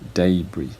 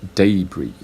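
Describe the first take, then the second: No difference in how they are said.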